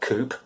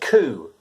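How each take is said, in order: First: It ends with a P sound, as spelled. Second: It ends in a vowel with no P sound. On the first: The speaker calls it wrong. "not coup" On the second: The speaker calls it right. "We say coup"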